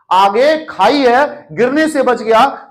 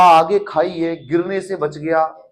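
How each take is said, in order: First: Slower, higher and louder, pressing on आगे; emphatic repeat. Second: Patient's words. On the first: Shown as a demonstration. Teacher restating a patient's words to stress the point, emphatic. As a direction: hammer home आगे खाई है for the class. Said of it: "means उस person को आगे खाई दिखाई दे रही है". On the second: Retold or imitated. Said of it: "उसने बोला".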